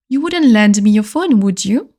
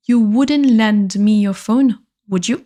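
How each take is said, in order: First: Said in the usual way. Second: Slow, careful repeat of the request; langzaam herhaald. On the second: Shown as a demonstration. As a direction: spell it out slowly for the class. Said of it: "slow repeat for learners".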